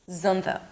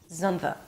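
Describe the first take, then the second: The two takes are said the same way.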